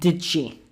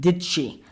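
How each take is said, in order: Both takes have the same delivery.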